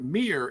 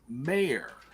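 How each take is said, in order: First: The name sounds like the word 'mere'. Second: The name sounds like the word 'mayor'. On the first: The speaker calls it wrong. "It's not Mir" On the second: The speaker calls it right. "it's Mayor"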